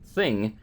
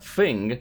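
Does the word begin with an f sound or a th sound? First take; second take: th sound; f sound. First: The word begins with a th sound. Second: The word begins with an f sound. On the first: The speaker calls it right. "supposed to be T H" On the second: The speaker calls it wrong. "with an F"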